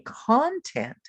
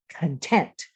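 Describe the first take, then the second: First: Content stressed on the first syllable, KON-tent; CONtent, the wrong way. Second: Content stressed on the second syllable, kən-TENT. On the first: Teacher models the wrong stress on content, slow. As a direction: say content with the stress on CON, slowly, as the wrong version. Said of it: "Don't say content". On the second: Teacher shows English learners content as kən-TENT. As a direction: say content with the stress on TENT, mouth opening wide. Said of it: "put the accent on the second syllable". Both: Shown as a demonstration.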